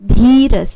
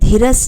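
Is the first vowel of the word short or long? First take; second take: long; short. First: The first vowel is said long. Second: The first vowel is said short. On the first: The speaker calls it right. "धीरस है। धी मात्रा देखिए आप।" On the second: The speaker calls it wrong. "धीरस नहीं है"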